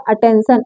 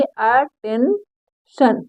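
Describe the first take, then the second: First: Said in the usual way. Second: "attention" slowly split as अ-टेन-शन; sounded out. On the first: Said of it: "इसको क्या". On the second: Shown as a demonstration. Teacher showing how to read it, "attention" broken into three slow parts. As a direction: say "attention" slowly, pausing between syllables. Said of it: "इसको पढ़ेंगे".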